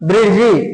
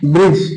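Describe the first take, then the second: First: The word ends with an added i vowel. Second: The word ends on the j consonant. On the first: The speaker calls it wrong. "తెలుగులో ఎట్లా రాస్తాం? బ్రిడ్జి అని రాస్తాం" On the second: The speaker calls it right. "యాక్చువల్గా ఎట్లా పలకాలి?"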